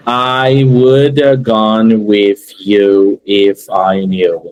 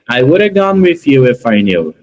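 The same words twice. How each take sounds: First: Very slow and low, every word separated; word by word, wrong way. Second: Whole sentence in one unbroken intonation; fast connected speech. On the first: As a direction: plod through the sentence one isolated word at a time. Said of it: "nenhum nativo vai falar assim". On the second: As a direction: run all three parts together without a pause. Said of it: "três partes ficam uma coisa única". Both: Shown as a demonstration.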